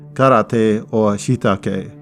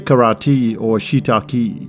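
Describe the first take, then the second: First: The final E is said as 'eh'. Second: The final E is not said as 'eh'. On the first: The speaker calls it right. "You would say ... the E is all about eh" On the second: The speaker calls it wrong. "you would never say"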